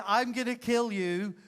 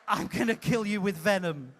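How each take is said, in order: First: With venom. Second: Said in the usual way. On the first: Shown as a demonstration. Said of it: "You say those words with venom". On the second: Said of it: "It's not".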